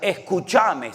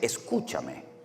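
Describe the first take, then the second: First: It is said in an Argentine way. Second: It is said in a Spain Spanish way. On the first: The speaker calls it wrong. "¿Hay que hablarle en argentino" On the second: The speaker calls it right. "es escúchame o escuchadme"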